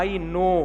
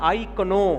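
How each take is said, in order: First: The word know is said without a k sound. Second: The word know is said with a k sound. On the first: The speaker calls it right. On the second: The speaker calls it wrong.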